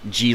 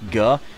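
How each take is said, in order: First: The G is a soft sound, as in giraffe. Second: The G is a hard sound, as in go. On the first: "or G like in giraffe" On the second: "a hard G like G"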